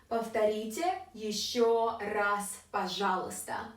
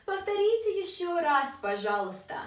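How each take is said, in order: First: Said in the usual way. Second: Higher start, falling on "пожалуйста"; higher, flowing request. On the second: Shown as a demonstration. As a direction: run "Повторите ещё раз" together up high, then drop. Same phrase again, higher and faster.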